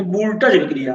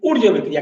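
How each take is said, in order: First: वोल्टेज said like "voltage", with an L; mispronounced Wurtz. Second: ऊर्ज as "oorj", run quickly into अभिक्रिया; correct Wurtz pronunciation. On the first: Teacher quoting eleventh-class students, वोल्टेज mispronounced like "voltage". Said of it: "इसको तुम लोग बोला करते थे". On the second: Teacher giving students the right name, ऊर्ज pronounced "oorj". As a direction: open ऊर्ज on "oo", without V or L. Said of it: "तो सही इसका जो". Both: Shown as a demonstration.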